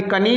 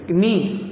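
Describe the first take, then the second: First: कनी with the K sounded before N; audible "ka" opening कनी; wrongly voiced K. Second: Said in the usual way. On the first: Shown as a demonstration. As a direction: say कनी as "ka-nee". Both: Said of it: "ये कनी नहीं है".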